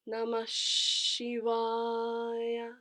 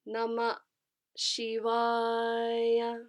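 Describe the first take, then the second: First: Namah runs into an extended sh sound. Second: Namah ends in a breathy ah, then a break. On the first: The speaker calls it right. "an extra half count for this additional sh" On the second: The speaker calls it wrong.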